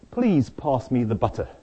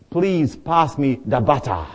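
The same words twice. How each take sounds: First: It is said in a British accent. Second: It is said in a Zimbabwean accent.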